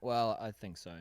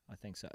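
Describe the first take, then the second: First: Said in the usual way. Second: Quiet aside. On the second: Real, not acted. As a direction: murmur it to yourself. Quiet echo of his own agreement.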